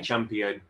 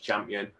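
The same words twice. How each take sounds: First: The word is said with all its syllables. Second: The word is clipped, with syllables dropped. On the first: "we don't have the time to say champion" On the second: "so it's just champion"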